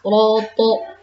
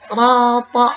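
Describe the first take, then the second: First: The vowel is a rounded 'o'. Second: The vowel is an open, unrounded 'a'. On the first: The speaker calls it wrong. "tidak roto" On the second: The speaker calls it right. "rata rata"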